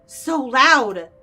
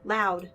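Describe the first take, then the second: First: Louder, exasperated burst; overwhelmed outburst. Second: Low, soft single word; overwhelmed, subdued. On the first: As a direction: let LOUD burst out forcefully. Overwhelmed by noise, escalating. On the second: Overwhelmed by noise, first take. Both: Acted.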